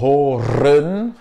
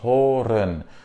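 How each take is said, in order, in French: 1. Le R final est fortement roulé et dur. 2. Le R final est doux et léger. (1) "on ne va pas dire horen" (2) "il est un peu plus doux en fin de mot"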